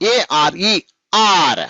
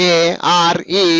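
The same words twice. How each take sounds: First: ARE run together as one unit; joined letters. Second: ARE very slow, each letter apart; divided letters. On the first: Teacher modelling for pupils how to say it, ARE joined without breaks. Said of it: "చెప్పేటప్పుడు ఎలా చెప్పాలి". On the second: Teacher showing pupils what not to say, ARE slowly divided. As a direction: break ARE up with gaps between letters. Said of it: "అనరాదు". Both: Shown as a demonstration.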